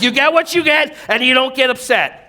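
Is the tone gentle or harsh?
harsh. It is said in a sharp, reactive tone. "we react in this"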